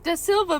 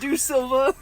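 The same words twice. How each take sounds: First: "Da Silva" with an open ah in "Da"; correct pronunciation. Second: "Do Silva" with a clear oh sound, as printed; misspelled version. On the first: Reader correcting the book's typo, saying "Da Silva". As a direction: say "Da Silva" properly, ah not oh. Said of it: "It's da Silva". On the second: Co-host reading the misprinted name, saying "Do Silva". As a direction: read "Do Silva" the wrong way the book spells it. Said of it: "they fucked up and they put a O". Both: Shown as a demonstration.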